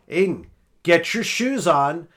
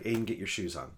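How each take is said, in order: First: The voice is loudest and clearly angry. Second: The voice is calm and at normal volume. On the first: The speaker has lost patience. "By the third time, I'm like" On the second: It is a first, patient request. "That's the first time"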